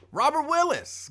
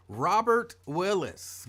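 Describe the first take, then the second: First: Much higher and louder hype call of the name; excited name call. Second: Slow, drawn-out name call, only slightly up; a little raised and excited. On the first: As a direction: belt the name out like a radio shout-out. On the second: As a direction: call the name with mild excitement, not yelling. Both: Real, not acted. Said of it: "my voice is a little raised and I'm excited".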